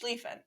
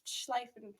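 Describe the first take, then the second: First: The stressed vowel sounds like 'ee'. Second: The stressed vowel sounds like 'eye'. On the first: The speaker calls it right. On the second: The speaker calls it wrong.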